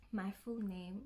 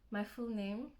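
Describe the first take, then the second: No difference in how they are said.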